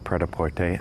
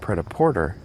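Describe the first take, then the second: First: The word ends with a long 'ay' sound. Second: The word ends with an 'er' sound. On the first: The speaker calls it right. "it should have a long A sound at the end" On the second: The speaker calls it wrong. "the way I'm pronouncing it"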